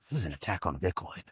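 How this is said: It is said in an intense, conspiratorial tone.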